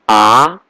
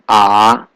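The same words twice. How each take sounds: First: The pitch rises toward the end. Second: The pitch dips down then rises. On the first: "The second tone is going up, like question what?" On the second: "Third tone is going down, going up"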